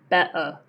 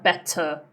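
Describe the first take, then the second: First: The middle T is a glottal stop. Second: The middle T is a clear, released t. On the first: The speaker calls it right. "when T appears between uh, two vowels" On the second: The speaker calls it wrong. "not better"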